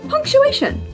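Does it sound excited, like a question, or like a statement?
statement. It is said with a flat, falling tune. A simple statement is being made.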